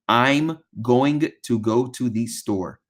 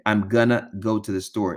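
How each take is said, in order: First: 'Going to' is pronounced fully and clearly. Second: 'Going to' is reduced and run together. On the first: The speaker calls it right. "correct pronunciation would be" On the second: The speaker calls it wrong. "instead of a pr- correct protect"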